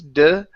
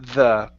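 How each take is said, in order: First: It begins with a hard d sound. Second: It begins with a soft th sound. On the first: The speaker calls it wrong. "Instead of over the mountains, de" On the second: The speaker calls it right. "it's the"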